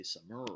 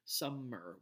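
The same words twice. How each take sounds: First: "summer" as sum-MER, weight moved to the end; short "sum", long rising "mer" in "summer"; wrong second-syllable stress. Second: "summer" as SUM-mer, first syllable lengthened; slow "summer", weight on "sum"; first-syllable stress. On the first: Lecturer showing what we don't say, sum-MER. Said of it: "we don't say summer". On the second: Lecturer showing how we say it, SUM-mer. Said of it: "The first syllable is the one that's stressed". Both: Shown as a demonstration.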